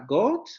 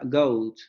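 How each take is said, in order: First: It is said with a non-American vowel. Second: It is said with the American diphthong. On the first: The speaker calls it wrong. "en inglés americano no se pronuncia goat" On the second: The speaker calls it right. "sino que se pronuncia goat"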